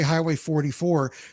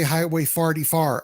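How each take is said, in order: First: The vowels sound like a standard 'or'. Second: The vowels sound like 'ar', as in 'far'. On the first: "They don't say" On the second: "in Saint Louis, they have an accent. They say"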